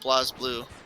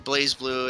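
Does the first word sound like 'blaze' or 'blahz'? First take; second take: blahz; blaze. First: The first word sounds like 'blahz', without an ay sound. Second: The first word sounds like 'blaze', with an ay sound.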